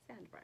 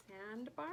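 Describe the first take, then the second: First: Said in the usual way. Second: Sandbar said like a question, pitch climbing at the end; questioning rise on Sandbar. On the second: Real, not acted. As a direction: let Sandbar lift into an unsure question. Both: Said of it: "said that like it was a question".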